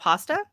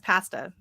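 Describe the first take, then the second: First: Pasta is said in an American accent. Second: Pasta is said in a Canadian accent. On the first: This is the usual local way to say it. "instead of pasta" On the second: This is how the Canadian husband says it. "he says pasta"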